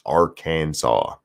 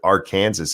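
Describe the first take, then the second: First: The word ends with a 'saw' sound. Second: The word ends with a 'sas' sound. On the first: The speaker calls it right. "but it's Arkansas. I don't know how they get saw out of S A S" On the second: The speaker calls it wrong. "You can call it Arkansas if you want"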